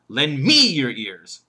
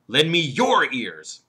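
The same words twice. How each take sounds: First: The stress falls on the word me. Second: The stress falls on the word your. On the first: Listen to this speaker rather than another one. "He could put the emphasis on me" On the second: Give your own ears, not someone else's. "What about the third word, your?"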